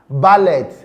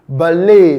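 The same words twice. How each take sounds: First: The final t sound is pronounced. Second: The final t sound is silent. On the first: The speaker calls it wrong. "We will call it ballet" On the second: The speaker calls it right. "it is pronounced ballet. ... the T in the word ... is silent"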